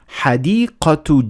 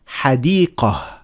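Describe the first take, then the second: First: The word ends with a t sound. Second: The word ends with an h sound. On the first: The reader continues to the next word. "if you keep on reading, you pronounce it as a ta" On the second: The reader stops after this word. "if you stop at the word, you pronounce it as a ha"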